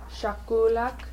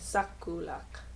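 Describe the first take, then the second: First: The word begins with a sh sound. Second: The word begins with an s sound. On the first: This is how northern villages say it. "in a fognak in Karluk, you'd say shakulak" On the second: This is how southern villages say it. "in southern Kodiak, you'd say sakulak"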